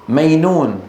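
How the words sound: The middle consonant is a y sound. "من العرب من يبدل الجيم ياء"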